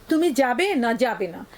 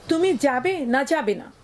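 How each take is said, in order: The two takes are said the same way.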